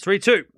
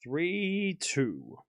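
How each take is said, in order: First: Loud, higher score call. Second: Softer, offhand score repeat; quiet echo. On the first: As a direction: belt out the score. Calling the game score. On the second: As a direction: murmur the score to yourself. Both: Acted.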